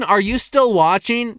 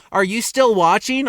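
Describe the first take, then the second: First: Louder, stress on still with a rise; repeated check-in. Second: Asking the viewers with a rise on still; a rising check on the audience; plain check-in. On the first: Vlogger repeating the question to viewers, pushing still. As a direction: press the word still on the repeat. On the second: Vlogger asking viewers if they're still there, lightly rising. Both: Shown as a demonstration. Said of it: "drop a comment if you're still watching".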